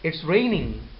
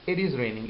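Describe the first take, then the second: First: The pitch rises at the end. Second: The pitch falls at the end. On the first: It asks whether it is true. "Now it has become a question" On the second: It tells someone a fact. "it means you are making a statement"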